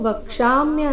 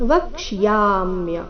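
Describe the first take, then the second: First: The 'ksh' is said without a following 'y' sound. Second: The 'ksh' is followed by a 'y' sound. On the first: The speaker calls it wrong. "ವಕ್ಷಾಮ್ಯ ಅಂತ ಇಲ್ಲ" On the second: The speaker calls it right. "ಕ್ಷದೊಂದಿಗೆ ಯಾ ಸೇರಿ ಕ್ಷ್ಯಾ ಇದೆ"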